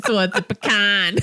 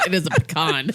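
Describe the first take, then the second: First: Put-on teasing Michigan accent, "pecan" as puh-KAN; mock a Michigan flat a in "pecan"; exaggerated Michigan vowel on the last word. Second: "pecan" said as puh-KAHN; northern pronunciation. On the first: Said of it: "Brandy's from Michigan". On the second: Shown as a demonstration. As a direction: stress the second syllable of "pecan" with an open ah. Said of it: "We are north of the Mason-Dixon line".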